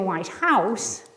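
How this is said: The stress falls on the second word. "that's just a descriptive phrase"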